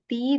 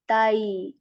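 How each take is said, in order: First: The vowel is a plain long 'ee' sound. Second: The vowel glides from 'a' into 'y'. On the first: The speaker calls it wrong. "this is not ti" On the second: The speaker calls it right. "This is tay"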